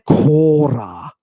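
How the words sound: The first vowel is a long o. This is the Cretan form. "With that lengthened omega, the Cretan"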